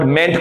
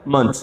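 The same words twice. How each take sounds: First: मेंट with a full open E; wrong pronunciation. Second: मंथ as a short "munt"; correct pronunciation. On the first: Teacher naming the ending to be replaced, mispronounced. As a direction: say मेंट as "ment". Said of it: "मेंट को मंथ बोलेंगे". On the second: Teacher answering her own question, correctly pronounced. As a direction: say मंथ with a brief "uh" vowel. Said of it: "मेंट को क्या बोलेंगे हम?". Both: Shown as a demonstration.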